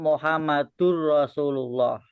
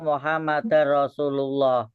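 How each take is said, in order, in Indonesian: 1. Vokal sebelum r itu 'u'. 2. Vokal sebelum r itu 'a'. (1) "Yang betul"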